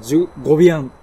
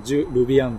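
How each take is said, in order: First: ジュ・ゴビアン with a clear ゴ for the French r; ゴ instead of ル. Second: ジュ・ルビアン said with a plain katakana ル sound. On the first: Showing the book's trick, ジュ・ゴビアン with ゴ. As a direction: swap ル for ゴ: ジュ・ゴビアン. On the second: Explaining the usual katakana, ジュ・ルビアン with ル. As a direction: read ジュ・ルビアン as written, with ル. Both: Shown as a demonstration. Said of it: "ルじゃなくてゴって言いなさい".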